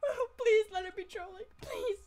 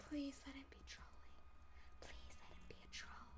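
First: Higher, louder whiny begging; tearful mock plea. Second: Soft breathy prayer; whispered plea. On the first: Hoping the threat is a troll, mock crying plea. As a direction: whimper the plea half-crying. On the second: Acted. Hoping the threat is a troll, whispered plea. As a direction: murmur it like a secret wish.

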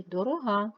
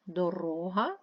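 First: Дорога with a long, stressed -га; stress on last syllable. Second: Дорога with a long middle -ро-; stress on second syllable. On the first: Teacher comparing two words, last-syllable stress on дорога. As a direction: land on the end of дорога. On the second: Teacher comparing two words, second-syllable stress on Дорога. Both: Shown as a demonstration. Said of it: "Наголос може змінювати значення".

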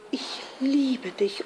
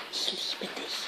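First: Soft, higher-pitched confession; hushed but voiced declaration of love; shy love declaration. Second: Hushed, breath-only prompting; very soft whispered love words; conspiratorial whisper. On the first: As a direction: confess it gently and tenderly. Doris shyly declares love. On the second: Acted. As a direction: whisper it like a secret temptation. Eros prompts the girl secretly.

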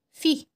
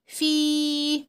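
First: في with a brief kasra; short i in في. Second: في with a long held vowel. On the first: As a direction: clip the i of في short. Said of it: "عشان دي الكسرة حركة قصيرة". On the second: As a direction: stretch the ii of في right out. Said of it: "هيبقى صوته طويل". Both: Shown as a demonstration.

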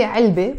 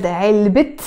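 First: علبة ending in an open "e", "ilbe"; silent te marbuta. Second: علبة ending on a clear T, "ilbit"; T sound pronounced. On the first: Teacher says the word on its own: علبة with silent T. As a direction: leave the T off the end of علبة. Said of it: "I don't pronounce it". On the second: Teacher joins noun to noun: علبة with final T. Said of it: "I pronounced the T sound". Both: Shown as a demonstration.

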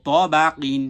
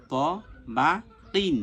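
First: ত বা কিন louder, run together as one word; joined together. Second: ত, বা, কিন each alone with a pause; syllable by syllable. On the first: Teacher pronounces the learnt syllables together, joined up. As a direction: read ত বা কিন firmly without gaps. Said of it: "এর সাথে একসাথে উচ্চারণ করব". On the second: Teacher drills each syllable before joining, spaced apart. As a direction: spell out ত বা কিন piece by piece. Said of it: "এরপরে যখন আমার এটা হয়ে গেল". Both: Shown as a demonstration.

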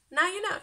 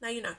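First: Now you know bounced up high and louder; sing-song teasing echo; bright higher teasing repeat; higher playful repeat. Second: Said in the usual way. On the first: Shown as a demonstration.

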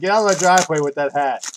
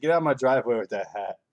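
First: Much louder, higher mock yell at him; mock shout. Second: Said in the usual way. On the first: To the house owner in a Dallas hat, mock shouting. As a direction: bellow it like you're chasing him off. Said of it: "I'm like". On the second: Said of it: "I said".

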